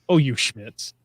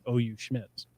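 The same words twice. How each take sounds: First: It is said like an angry yell. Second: It is read out calmly.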